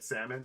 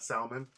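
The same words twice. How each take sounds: First: The L in the word is silent. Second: The L in the word is pronounced. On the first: The speaker calls it right. "I say salmon now. Because apparently in English, the L means nothing" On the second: The speaker calls it wrong. "I've been ridiculed for how I used to say it"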